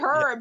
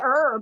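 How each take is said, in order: First: It is said the British way, h sounded. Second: It is said the American way, h silent.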